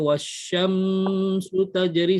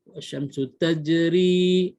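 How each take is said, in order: First: The m sound is held long. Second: The m sound is kept short. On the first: The speaker calls it wrong. "jangan ... salah eh" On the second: The speaker calls it right. "mim mati pendek"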